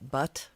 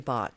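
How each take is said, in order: First: The vowel sounds like the one in 'butt'. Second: The vowel sounds like the one in 'bot'. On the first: This is how the name is actually pronounced. "it's more uh like a butt" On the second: This is the pronunciation the owner prefers to use. "I say bot like just like B O T because that sounds better"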